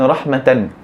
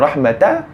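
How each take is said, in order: First: The word ends with the syllable tan. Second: The word ends with the syllable ta. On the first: "Contoh perkataan rahmatan" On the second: "adakah kita baca dengan rahmata?"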